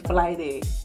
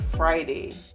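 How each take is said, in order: First: The R sound is said as an L. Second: The R sound is said as an R. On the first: "R is pronounced like a L over here" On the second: "instead of Friday"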